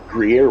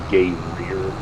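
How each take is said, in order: First: The word is said as groo-yair. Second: The word is said as gay rear.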